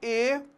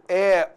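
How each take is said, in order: First: The vowel is pronounced with a closed quality. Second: The vowel is pronounced with an open quality. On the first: "timbre fechado" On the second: "timbre aberto"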